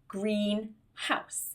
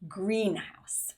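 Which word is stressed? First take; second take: house; green. First: The stress falls on the word house. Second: The stress falls on the word green. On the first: It is a house that is green in colour. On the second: It is a building for growing plants.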